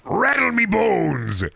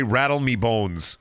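First: High, drawn-out skeleton cry. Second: Said in the usual way. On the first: Acted. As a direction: stretch it into a slow skeletal wail. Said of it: "In a skeleton voice again?". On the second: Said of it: "I'm not saying it in a skeleton voice".

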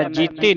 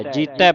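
First: ਜੀਤੀ ending in ee, jee-tee, shown as a mistake; ਜੀਤੀ with a closed ee ending; the wrong reading of ਜੀਤੈ; wrong pronunciation. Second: ਜੀਤੈ ending in a broad ai sound, jee-tai; ਜੀਤੈ with an open ai, not ee; the right reading of ਜੀਤੈ; correct pronunciation. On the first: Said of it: "ਨਹੀਂ ਪੜ੍ਹਨਾ". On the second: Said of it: "ਜੀਤੈ ਪੜ੍ਹਨਾ". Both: Shown as a demonstration.

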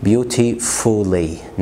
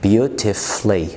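First: Beautifully said slowly with the u sounded, "beauti-fully"; beautifully with every letter sounded, slow; wrong pronunciation. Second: Beautifully said slowly as "beauti-flee"; beautifully drawn out, u silent; slow correct pronunciation. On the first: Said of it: "ما تقولش beautifully". (beautifully غلط بنطق الـ u) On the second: (beautifully ببطء من غير الـ u) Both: Shown as a demonstration.

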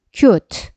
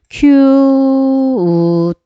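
First: Said in the usual way. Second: 큐트 stretched very long, vowel held before the final t; drawn-out sounding-out. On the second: Shown as a demonstration. Teacher blends the sounds for learners, 큐트 drawn out. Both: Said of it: "발음 껴 볼게요".

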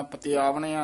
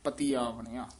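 First: ਆਵਣਿਆ run together with ਪਤੀ, quick; the wrong way: ਪਤੀ ਆਵਣਿਆ rushed as one; wrong pronunciation. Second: ਪਤੀ separated and lower, ਆਵਣਿਆ said carefully; correct pronunciation. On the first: Teacher showing the student which way not to say ਪਤੀ ਆਵਣਿਆ, quick. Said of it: "ਨਹੀਂ ਕਹਿਣਾ". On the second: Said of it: "ਤੱਤੇ ਦੀ ਬਿਹਾਰੀ ਨਾਲ ਉਚਾਰਨ ਕਰਨਾ". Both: Shown as a demonstration.

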